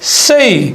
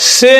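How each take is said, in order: First: The vowel glides from 'e' into 'ee'. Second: The vowel is a plain, short 'e' sound. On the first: The speaker calls it right. "হয়ে যাবে সেই" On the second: The speaker calls it wrong. "সে নয়"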